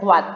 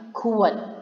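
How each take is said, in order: First: The middle is said as a 'w' glide. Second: The middle is said as a full 'ua' vowel. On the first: The speaker calls it wrong. "Dia tidak dibaca kuat" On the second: The speaker calls it right. "tapi kuat"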